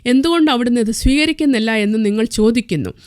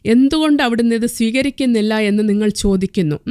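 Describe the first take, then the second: No difference in how they are said.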